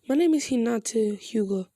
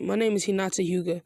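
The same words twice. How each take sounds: First: It is said in an odd put-on character voice. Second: It is said in the speaker's normal voice.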